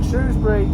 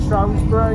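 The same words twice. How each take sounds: First: Said in the usual way. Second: Shrewsbury said SHROWS-bury; Shrewsbury with a long O, SHROHZ-bury; variant pronunciation. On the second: Shown as a demonstration. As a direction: rhyme the start of Shrewsbury with "shows". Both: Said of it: "Some people call it".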